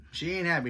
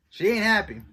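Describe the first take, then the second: First: Said in the usual way. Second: Louder and higher, punched out; emphatic. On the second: Real, not acted. Viewer stressing Wanda's anger, emphatic and loud. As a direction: hit it hard for effect. Wanda angry at Sword director.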